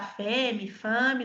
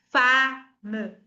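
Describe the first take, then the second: First: Femme said fem-ee with e and final i; wrong femme. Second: Femme as fam, open a, no final vowel; correct femme. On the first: Teacher showing students the mistaken femme. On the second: Teacher giving students the correct femme. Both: Shown as a demonstration. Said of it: "não, é".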